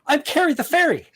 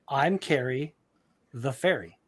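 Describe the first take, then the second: First: It is said with urgency. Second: It is said calmly, without urgency.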